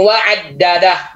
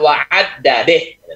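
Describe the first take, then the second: First: The final vowel is an open 'a' sound. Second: The final vowel is tilted toward an 'e' sound. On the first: The speaker calls it right. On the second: The speaker calls it wrong.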